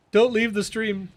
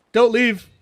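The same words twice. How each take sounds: First: Said in the usual way. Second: Calling out loud. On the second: Real, not acted. Calls out to chat.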